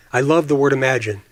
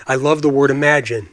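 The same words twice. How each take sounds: The two takes are said the same way.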